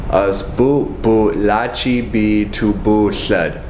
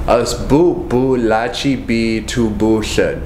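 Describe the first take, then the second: No difference in how they are said.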